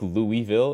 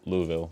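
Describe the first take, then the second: First: The first part sounds like the name Louis. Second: The first part does not sound like Louis. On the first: It follows the way outsiders say the name. "Louisville is how we call it because we want to do like King Louis" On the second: It follows the way local people say the name. "they call it Louisville or Louisville"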